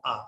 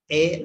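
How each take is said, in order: First: "A" said as AH; wrong vowel. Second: "A" said as AY; wrong vowel. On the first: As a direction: say "A" as open "ah". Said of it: "no A". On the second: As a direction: say "A" like the letter's name. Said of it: "No A". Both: Shown as a demonstration.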